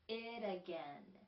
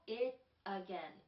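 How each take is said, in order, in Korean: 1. t는 r 같은 탄설음으로 발음됩니다. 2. t는 또렷한 t 소리로 발음됩니다.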